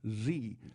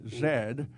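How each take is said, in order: First: The letter is said the American way. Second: The letter is said the British way. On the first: "like the letter" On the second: "as the British say"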